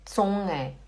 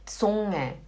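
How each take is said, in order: Both takes have the same delivery.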